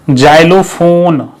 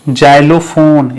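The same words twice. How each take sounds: Both takes have the same delivery.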